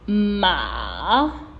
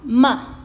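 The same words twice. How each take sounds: First: The pitch dips low and then rises. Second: The pitch falls sharply and briefly. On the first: "That's how we read the third tone" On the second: "the last tone is the falling tone. It's usually a little brief"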